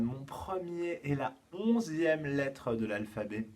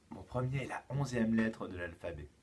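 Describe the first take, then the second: First: Slow, careful riddle clue; slow dictation of the first clue. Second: Said in the usual way. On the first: Shown as a demonstration. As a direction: read each word slowly for the children.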